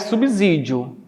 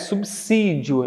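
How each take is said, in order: First: The middle consonant sounds like a z. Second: The middle consonant sounds like an s. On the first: The speaker calls it wrong. "não é subsídio" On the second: The speaker calls it right. "é subsídio. É como se fosse o som do C"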